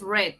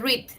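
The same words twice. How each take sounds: First: It is the past-tense pronunciation of the word. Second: It is the present-tense pronunciation of the word. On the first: The reading happened before. "en pasado es read" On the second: The reading happens now. "en presente se lee read"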